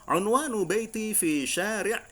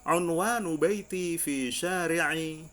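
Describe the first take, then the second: First: The final vowel of the last word is dropped. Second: The final vowel of the last word is pronounced. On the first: The speaker is fluent and talking casually. "Itu kalau sudah mahir" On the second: The speaker is a beginner practicing from the book. "bisa kita katakan dibaca harokatnya"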